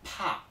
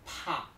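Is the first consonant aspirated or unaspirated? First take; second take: aspirated; aspirated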